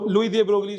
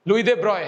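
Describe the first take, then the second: First: The surname is said with a hard g and 'lee'. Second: The surname is said as one syllable, 'broy'.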